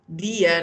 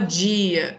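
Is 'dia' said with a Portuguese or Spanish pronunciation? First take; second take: Spanish; Portuguese. First: The word is said with a Spanish pronunciation. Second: The word is said with a Portuguese pronunciation. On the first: The speaker calls it right. "a gente fala" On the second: The speaker calls it wrong. "Em espanhol a gente não fala"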